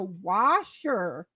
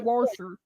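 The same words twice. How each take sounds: First: The word is said without an R sound. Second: The word is said with an R sound. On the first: This is how northerners say it. The speaker calls it right. "it's a washer" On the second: This is how southerners say it. The speaker calls it wrong. "they add an R into it"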